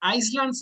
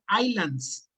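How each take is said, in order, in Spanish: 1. El sonido s se pronuncia en medio. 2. El sonido s no se pronuncia en medio. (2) "en Islands la S no suena"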